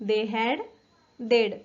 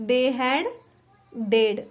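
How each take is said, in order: No difference in how they are said.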